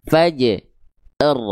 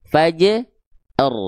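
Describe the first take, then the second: No difference in how they are said.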